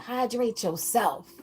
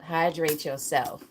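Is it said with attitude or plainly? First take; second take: with attitude; plainly. First: It is said with a sassy, attitude-filled tone. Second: It is said in a plain, neutral way.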